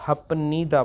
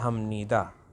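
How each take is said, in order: First: The middle consonant is said as a p sound. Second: The middle consonant is said as an m sound. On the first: The speaker calls it wrong. "हपनीदा पढ़ने की कोशिश करेंगे जो कि गलत है" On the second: The speaker calls it right. "ये जो फियप है ये मियम में चेंज हो जाएगा"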